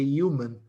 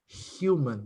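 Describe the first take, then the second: First: The word is said without an H sound. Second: The word is said with an H sound. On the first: The speaker calls it wrong. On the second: The speaker calls it right.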